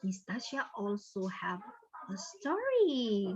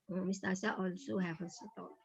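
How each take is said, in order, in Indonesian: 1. Nada naik dan turun sepanjang kalimat. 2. Nada tetap datar sepanjang kalimat. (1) "ada intonasinya"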